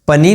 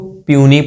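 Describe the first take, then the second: First: The p is followed directly by the vowel. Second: The p is followed by a y sound. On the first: The speaker calls it wrong. "इसको पनी नहीं पढ़ना है" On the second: The speaker calls it right. "हम इसको प्यूनी पढ़ रहे हैं"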